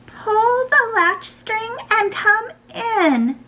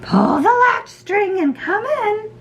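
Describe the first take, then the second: First: Very high, slow granny voice; grandmother. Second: High mock-granny voice; wolf posing as grandmother. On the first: Grandma lets her granddaughter in, high and drawn-out. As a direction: call out slowly as a high-voiced old granny. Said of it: "replied Grandma". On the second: Wolf in Grandma's bed lets Red in, high fake granny. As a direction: call out briskly in a faked high granny voice. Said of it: "replied the wolf". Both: A narrator's reading.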